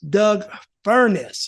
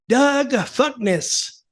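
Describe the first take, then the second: First: The surname is said with a clear R sound. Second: The surname is said without its R sound. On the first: The speaker calls it right. "he could get the R out" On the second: The speaker calls it wrong. "I couldn't get him to say Doug Furnace"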